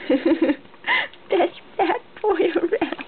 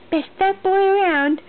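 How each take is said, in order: First: Slow laughing repeat. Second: Up high and loud, beaming; high loud praise. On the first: Mother repeating praise to her baby, laughing slowly. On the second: Mother praising her baby, high and loud. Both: Real, not acted.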